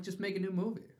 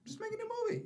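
First: Slightly raised pitch, ending up; a light, higher-pitched plea; mild appeal. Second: Very high-pitched mock pleading; high comic appeal, falling at the end; exasperated plea. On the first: Acted. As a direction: appeal to them without pushing. Pleading with filmmakers, first take. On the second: Repeated plea, escalating.

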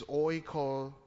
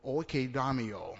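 First: Oikodamio said slowly, broken after oiko; slow, careful pronunciation. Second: Said in the usual way. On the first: Shown as a demonstration. Preacher working through a Greek word, slow and careful oikodamio. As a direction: sound out oikodamio in two careful pieces. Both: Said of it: "I have to say that slow".

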